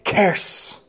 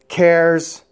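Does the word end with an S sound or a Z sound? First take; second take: S sound; Z sound. First: The word ends with a hissing s sound. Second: The word ends with a buzzing z sound. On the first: The speaker calls it wrong. "Otherwise, you would say" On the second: The speaker calls it right. "never ended with an S sound"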